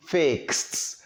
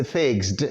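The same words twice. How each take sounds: First: "fixed" said as "fikst"; voiceless T ending. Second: "fixed" said as "figzd"; wrong voiced ending. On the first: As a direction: finish "fixed" on a released, voiceless "t". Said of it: "With a voiceless consonant". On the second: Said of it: "you don't say fixed". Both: Shown as a demonstration.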